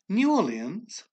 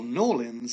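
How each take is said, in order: First: The name is said in full, syllable by syllable. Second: The name is clipped, the first word run together.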